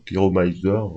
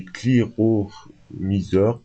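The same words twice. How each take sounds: First: Cliromiseurs with an English "my" sound, kli-ro-MAI-zeur; English accent. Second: Said in the usual way. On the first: Shown as a demonstration. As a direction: give cliromiseurs a light English twist. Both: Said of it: "avec le, l'accent anglais".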